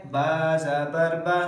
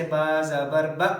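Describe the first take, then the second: First: Final "बा" short but smooth, no jerk; correct smooth vowel. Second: Final "ब" cut off with a jerk; wrongly jerked vowel. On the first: Teacher giving the right reading after the jerk, smooth "बा". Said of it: "ये ठीक है". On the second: Teacher showing pupils the jerking mistake, abrupt "ब". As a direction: jolt the last "ब" abruptly short. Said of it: "झटके की मिसाल जैसे". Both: Shown as a demonstration.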